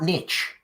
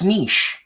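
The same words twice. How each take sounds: First: Niche is pronounced the American way. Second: Niche is pronounced the French way. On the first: The speaker calls it wrong. "You Americans, you say" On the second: The speaker calls it right. "it's a French word"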